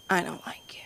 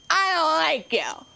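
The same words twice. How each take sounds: First: Put-on hushed, barely audible kid's confession; whispered insult. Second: High-pitched imitation of a defiant kid; mock child's outburst, pitched way up; emphatic repeat. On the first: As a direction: whisper it under your breath like a grudging child. Kid's muttered insult, asked to repeat. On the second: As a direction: blurt it out high so it can't be missed. Kid repeats it after being asked.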